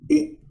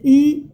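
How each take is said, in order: First: The vowel is kept short. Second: The vowel is held long. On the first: The speaker calls it right. "but it's short" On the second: The speaker calls it wrong. "If you will say E, it would be long"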